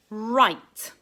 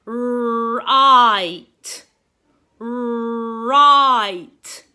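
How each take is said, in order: First: Said in the usual way. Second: Right. loud and slow, the I drawn out; stretched vowel. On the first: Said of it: "a signpost showing that we need to turn". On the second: Shown as a demonstration. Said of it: "you can hear that I sound in the middle".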